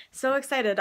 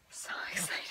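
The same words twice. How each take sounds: First: Said in the usual way. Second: Soft breathy whisper. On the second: Real, not acted. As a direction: whisper it to yourself. Whispered, then said aloud.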